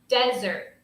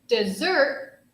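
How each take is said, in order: First: The stress is on the first syllable. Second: The stress is on the second syllable. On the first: A dry landscape like the Sahara. "desert is like what we would find in the Sahara" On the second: Sweet food eaten at the end of a meal. "dessert has more emphasis on the second syllable"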